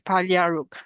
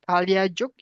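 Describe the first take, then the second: First: The last syllable starts with an R sound. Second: The last syllable starts with a J sound. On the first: This is the original traditional form of the name. The speaker calls it right. "It's a proper pronunciation" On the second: This is the older, replaced form of the name. The speaker calls it wrong. "it used to be, we used to pronounce it juk"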